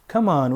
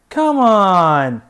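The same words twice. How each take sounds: First: It sounds urgent, pushing someone to hurry. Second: It sounds disbelieving, rejecting what was said. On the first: The listener should hurry up. "Come on, we don't have much time" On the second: What was said is not true. "You know that's not true"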